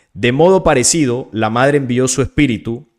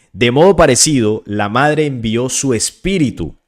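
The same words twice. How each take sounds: Both takes have the same delivery.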